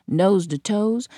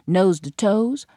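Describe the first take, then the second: No difference in how they are said.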